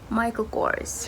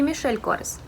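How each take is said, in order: First: The first name sounds like 'Michael'. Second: The first name sounds like 'Michel'. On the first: The speaker calls it right. "потому что создал его американец, поэтому Майкл Корс" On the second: The speaker calls it wrong. "Не Мишель Корс"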